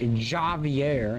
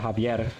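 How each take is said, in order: First: The name begins with an English J sound. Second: The name begins with an H sound. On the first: The speaker calls it wrong. "people are like Javier" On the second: The speaker calls it right. "J makes an H sound in Spanish"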